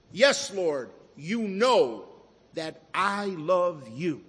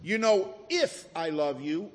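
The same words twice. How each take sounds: First: Firm, measured, with "know" stressed and "I love you" drawn out; humble confidence. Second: "if" leaned on and lifted as the doubtful word; stress on if. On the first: Retold or imitated. Peter answering the Lord, confident, with weight on "know". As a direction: declare it surely, leaning on "know" and then "I". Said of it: "That's confidence. That's humility". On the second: Shown as a demonstration. Preacher showing what Peter did not say, stress on "if". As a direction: hit "if" to cast doubt on the love. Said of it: "Peter did not say".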